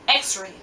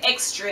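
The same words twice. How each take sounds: First: No t sound comes before the r. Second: A t sound comes before the r. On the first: The speaker calls it right. "the correct word is X-ray" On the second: The speaker calls it wrong. "Jamaicans say X-ray, X T R A Y"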